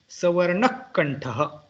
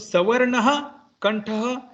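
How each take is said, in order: First: The visarga breath before kantha is cut to half. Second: The visarga breath before kantha is fully pronounced. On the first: "the Visarga is not pronounced fully" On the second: "this is general pronunciation"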